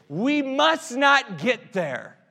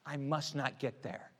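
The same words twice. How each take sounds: First: Much higher and louder, stretched out; rising to a rallying cry; loud slow declaration. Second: Soft, to himself; a quiet personal vow; quiet resolve. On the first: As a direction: preach it to the whole room. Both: Shown as a demonstration.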